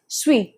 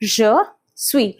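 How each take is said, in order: First: The two words are run quickly together. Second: Both words are said fully and separately. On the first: "quickly saying it as suis, just like that" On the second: "so we say je suis"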